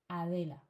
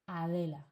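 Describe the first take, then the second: Both takes have the same delivery.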